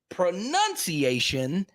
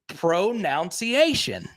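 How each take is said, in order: First: The second syllable sounds like 'nun'. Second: The second syllable sounds like 'noun'.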